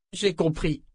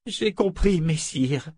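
First: Said in the usual way. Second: J'ai compris, messire repeated meekly with the title; submissive repetition. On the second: A narrator's reading. Claudine humbly repeating the phrase as ordered. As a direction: obediently parrot the correction. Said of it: "répéta Claudine".

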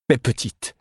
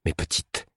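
First: Calling out to the swarm; an urgent plea to her bees; raised call to the bees. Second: Breathed in a whisper to the bees; whispered softly; a hushed whisper to the swarm; murmured. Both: A narrator's reading.

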